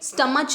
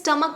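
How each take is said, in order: First: The word ends with a ch sound. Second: The word ends with a k sound. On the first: The speaker calls it wrong. "हम इसे स्टमच नहीं बोलते" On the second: The speaker calls it right. "हम इसे स्टमक बोलते हैं"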